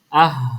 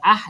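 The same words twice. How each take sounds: First: The sound comes from deep in the throat. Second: The sound comes from higher up in the throat. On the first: The speaker calls it right. "pastikan suara dia tu suara yang dalam" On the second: The speaker calls it wrong. "kalau ah dah dah ke atas"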